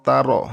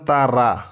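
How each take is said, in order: First: The final vowel is clipped short. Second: The final vowel is drawn out long. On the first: The speaker calls it right. "হবে তা র" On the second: The speaker calls it wrong. "অনেকে বলেন তারা, তারা হবে না, খবরদার"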